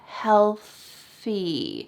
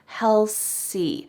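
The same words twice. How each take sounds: First: The th is said with the tongue out. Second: The th is said as an s sound. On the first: The speaker calls it right. "but really it should be healthy" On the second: The speaker calls it wrong. "a common mistake I see with the T H is changing it into an S"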